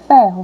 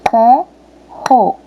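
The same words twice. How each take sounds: First: Said in the usual way. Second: "Ferro" broken into fer and ro; separação silábica. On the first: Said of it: "abri a boca pra falar a palavra ferro". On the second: Shown as a demonstration. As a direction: say "Ferro" syllable by syllable, long pause between. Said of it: "Vamos de novo?". ("Ferro" pausado, uma sílaba de cada vez)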